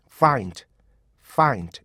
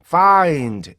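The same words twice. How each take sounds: First: Find short, falling at the end; unstretched find; correct compact find. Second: Find loud with a long drawn faa; elongated faa-ind; wrong stretched find. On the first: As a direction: keep the first vowel of find short. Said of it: "이렇게". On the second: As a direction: drag find out on its first vowel. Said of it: "이렇게 하시면 늘어난 거예요". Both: Shown as a demonstration.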